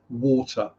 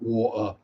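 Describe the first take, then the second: First: The T is pronounced clearly in standard English. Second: The T is dropped in a southern English accent. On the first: The speaker calls it right. "Sorry, water" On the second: The speaker calls it wrong. "not water. That is my definite southern accent coming through"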